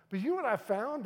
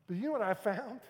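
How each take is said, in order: First: Higher and louder pulpit question; preaching question, bigger. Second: Loud rising pulpit question; preaching question. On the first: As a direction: lift it higher the second time. Repeated rhetorical question. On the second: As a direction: ask the church, rising. Rhetorical question to congregation. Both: Acted.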